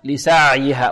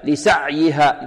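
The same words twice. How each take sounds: First: The ain sound is medium, not fully stopped. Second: The ain sound is stopped hard like a plosive. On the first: The speaker calls it right. "والعين هذه بارك الله فيكم حرف متوسط" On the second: The speaker calls it wrong. "يقول هكذا لسعيها"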